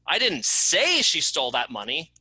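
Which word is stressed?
say. The word "say" is stressed. It was written, not said. "I didn't say it, I wrote it"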